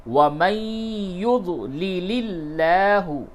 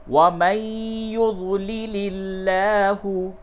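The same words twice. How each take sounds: No difference in how they are said.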